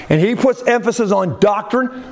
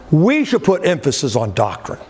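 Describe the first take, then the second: First: Puts hit with a rising tune; stress on puts. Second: We said first and strongest, falling after; stress on we. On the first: Preacher to congregation, stress on puts. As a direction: lean on puts, then on doctrine. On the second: Preacher urging congregation, stress on we. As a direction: lean hard on we, not on put. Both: Shown as a demonstration. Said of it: "God puts extra emphasis on doctrine".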